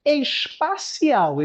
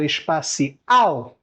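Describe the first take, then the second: First: "Espacial" slow, final syllable stressed; stressed syllable shown. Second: Said in the usual way. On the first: Shown as a demonstration. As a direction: alongue "Espacial" batendo na última sílaba. ("Espacial" lento com tônica na última) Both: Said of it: "Espacial não é uma paroxítona".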